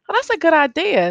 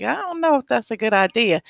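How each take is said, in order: First: Bright approving quote, higher. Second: Hesitant, unconvinced quote; doubtful. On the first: Quoting a colleague who likes the rage room, approving. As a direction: chirp it like a colleague who loves the idea. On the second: Quoting a colleague who doubts the rage room, skeptical. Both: Retold or imitated. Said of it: "some people are like".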